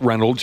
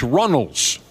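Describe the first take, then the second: First: The first syllable sounds like 'ren'. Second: The first syllable sounds like 'run'. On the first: The speaker calls it wrong. "It's not Reynolds" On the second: The speaker calls it right. "it's Runnels"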